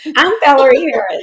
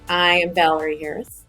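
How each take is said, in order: First: It is said in a perky, upbeat tone. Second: It is said in a flat, plain tone.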